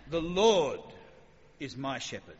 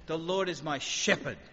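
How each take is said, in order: First: "Lord" punched much louder, "is my shepherd" falls away; stress on Lord. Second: "my" leaned on a little, slowly; slow, weight falling on "my"; stress on my. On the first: Preacher asks if David stresses God's name, stress on "Lord". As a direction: punch "Lord" hard, then let the rest drop. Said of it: "Is he saying". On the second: Preacher tests stressing "my" in the psalm, slow stress. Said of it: "Is that where the stress is?". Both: Shown as a demonstration.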